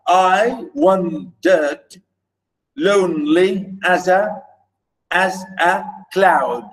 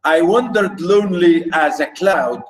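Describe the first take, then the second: First: Measured metrical demonstration with gaps between feet; exaggerated scansion. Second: Said in the usual way. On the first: Shown as a demonstration. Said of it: "I'm exaggerating maybe a little bit".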